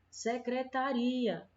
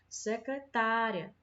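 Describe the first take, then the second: First: The syllable 'ta' is not stressed. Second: The syllable 'ta' carries the stress. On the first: It names the office of a secretary. "É diferente de secretaria" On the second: It names a female secretary. "o que marca essa diferença é o acento agudo aqui na, no A, do tá"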